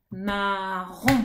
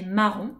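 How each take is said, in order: First: Marron cut into ma and ron, leaning on ron; syllables split. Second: Said in the usual way. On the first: Shown as a demonstration. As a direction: stretch marron in two beats, stressing the final ron. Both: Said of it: "découper les syllabes en insistant sur la dernière".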